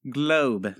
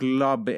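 First: Said in the usual way. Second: "globe" misread as glob, short ah vowel; mispronounced globe. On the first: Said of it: "That's it. That's it". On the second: Acted. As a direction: botch "globe" with an ah for the O. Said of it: "are you having trouble with the word globe".

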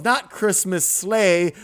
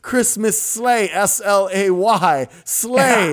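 First: Slow, stressed Not Christmas sleigh; mock correction. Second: Higher, slow Christmas sleigh spelled S L A Y, sleigh stressed; spelled-out emphasis. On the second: Retold or imitated. Director correcting Santa, higher and slow, spells out sleigh as slay. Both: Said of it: "And he goes".

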